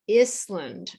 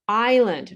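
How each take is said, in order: First: The S is pronounced. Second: The S is silent. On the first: The speaker calls it wrong. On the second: The speaker calls it right.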